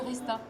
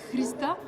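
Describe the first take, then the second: First: The initial H sound is dropped. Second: The initial H sound is pronounced. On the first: This is how it is often said in French. "Mais en français, souvent on dit Rista" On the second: This is how it is said in Bulgarian. "si en bulgare, parce que je suis bulgare, ça se prononce"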